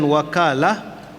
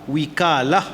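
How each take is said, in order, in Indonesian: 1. Vokal pertama ialah bunyi 'a'. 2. Vokal pertama ialah bunyi 'i'. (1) "wakalah boleh dibaca dengan wakalah" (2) "dua-dua baris boleh diterima"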